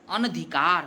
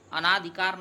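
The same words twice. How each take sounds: First: अनधिकार with a short अ after न, no long vowel; teacher says अनधिकार crisply, keeping every vowel short; correct pronunciation. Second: अनाधिकार with a long आ after न, shown as the error; teacher says अनाधिकार stretching the second vowel; wrong pronunciation. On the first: Teacher gives students the correct form, clear and careful. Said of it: "अनधिकार कहा जाता है". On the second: Teacher shows students the mistaken form, clear and careful. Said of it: "अनाधिकार नहीं कहा जाता है". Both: Shown as a demonstration.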